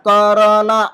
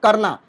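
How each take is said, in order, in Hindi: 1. र के बाद पूरा स्वर उच्चारित होता है। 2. र के बाद वाला स्वर गिरा दिया जाता है। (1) "र के बाद करना ऐसा नहीं बोलते हैं" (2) "जब हम बोलते हैं करना"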